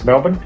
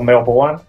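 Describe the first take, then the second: First: Melbourne is said with an Australian pronunciation. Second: Melbourne is said with an American pronunciation.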